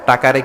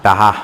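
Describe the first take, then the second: First: The middle consonant is a k sound. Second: The middle consonant is an h sound. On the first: "টাকারে কি বলে" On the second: "বরিশালের ভাইয়েরা ... বলে টাহা"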